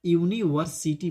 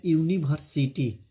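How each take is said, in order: First: यूनिवर्सिटी with a clear v, yu-ni-var-si-ti; proper यूनिवर्सिटी starting with yu and using v; correct pronunciation. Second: यूनिवर्सिटी with a b sound, like unibharsiti; wrong pronunciation. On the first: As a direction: model the right यूनिवर्सिटी with a v sound. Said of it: "तो इसे क्या पढ़ेंगे बाबू?". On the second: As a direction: demo the common error in यूनिवर्सिटी, b for v. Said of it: "बहुत से बच्चे गलत pronunciation करते हैं". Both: Shown as a demonstration.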